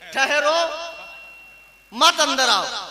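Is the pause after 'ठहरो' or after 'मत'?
after ठहरो. The pause comes right after 'ठहरो'.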